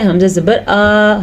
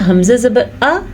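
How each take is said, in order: First: The final vowel is drawn out long. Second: The final vowel is short. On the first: The speaker calls it wrong. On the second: The speaker calls it right.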